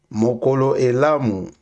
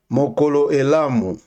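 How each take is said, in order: Both takes have the same delivery.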